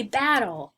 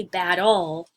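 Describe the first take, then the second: First: "battle" said the normal way, BAT-tle; stress on first syllable. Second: "battle" wrongly stressed on its ending, bat-TLE; stress on second syllable. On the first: Teacher correcting the wrong take, "battle" stressed on first syllable. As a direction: stress the "bat", let the end of "battle" fall away. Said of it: "we say battle". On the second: Teacher showing students the wrong way, "battle" stressed on second syllable. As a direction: push the weight onto the end of "battle". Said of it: "We don't say battle". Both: Shown as a demonstration.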